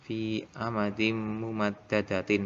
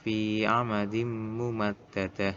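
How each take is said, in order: First: "mumaddadatin" with final -tin sounded; measured recitation of "mumaddadatin" in full; full ending pronounced. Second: "mumaddadah" ending in h; slow recitation, stopping on "mumaddadah" without tin; final t of "mumaddadah" turned to h; wakof stop. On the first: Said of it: "Nanti lafalnya". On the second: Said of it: "kalau diwakofkan". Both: Shown as a demonstration.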